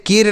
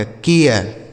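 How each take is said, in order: First: केर as one syllable, plain "ay" before r; wrong pronunciation. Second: केयर with a "ya" glide, falling lower; correct pronunciation. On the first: Teacher rules out a misreading, केर said as one syllable. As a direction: say केर without any "ya" glide. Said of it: "केर नहीं या कार नहीं". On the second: Teacher gives children the right reading, केयर said with a glide. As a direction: say केयर drawn into two sounds, "kay-yar". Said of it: "केर नहीं या कार नहीं पढ़ा जाएगा". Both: Shown as a demonstration.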